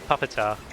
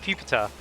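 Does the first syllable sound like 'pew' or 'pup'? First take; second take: pup; pew. First: The first syllable sounds like 'pup', as in puppet. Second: The first syllable sounds like 'pew', as in pupa. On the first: The speaker calls it wrong. "not uh, puppetar, as I've heard some people call" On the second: The speaker calls it right. "is pronounced pupitar"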